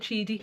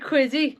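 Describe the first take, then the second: First: The name begins with a ch sound. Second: The name begins with a k sound. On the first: The speaker calls it right. "apparently it's called Cheedy" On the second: The speaker calls it wrong. "I'm going to say Quiddy, but it's not Quiddy"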